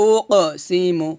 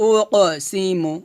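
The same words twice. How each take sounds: The two takes are said the same way.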